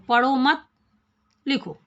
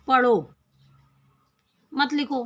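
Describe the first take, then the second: First: There is a pause after मत. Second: There is a pause after पढ़ो.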